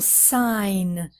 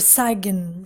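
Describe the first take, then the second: First: No g sound is pronounced in the word. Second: A g sound is pronounced in the word. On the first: The speaker calls it right. "No, sign. So the G is silent" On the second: The speaker calls it wrong. "many students say sign"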